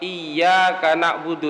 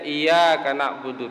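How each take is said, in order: First: The y sound is held long and doubled. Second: The y sound is short and single. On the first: The speaker calls it right. "Kita tahu misalnya lafaz" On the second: The speaker calls it wrong. "dibacanya iyyaka na'budu tanpa tasdid"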